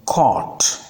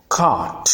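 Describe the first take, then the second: First: "caught" with rounded "aw", no r; minimal pair. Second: "cart" with long open "ah"; minimal pair. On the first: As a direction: say "caught" carefully as "kawt". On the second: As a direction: say "cart" carefully as an isolated model word. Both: Shown as a demonstration. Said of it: "Learn to pronounce the words correctly".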